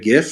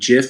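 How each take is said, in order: First: It begins with a hard G sound. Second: It begins with a soft J-like sound. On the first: "instead of GIF" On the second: "If you just used a soft G, like saying GIF"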